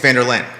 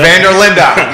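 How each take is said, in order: First: The name ends in a consonant sound. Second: The name ends in a vowel sound. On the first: The speaker calls it wrong. "a lot of folks think it's Vanderlyn" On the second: The speaker calls it right. "the official is Vanderlinda"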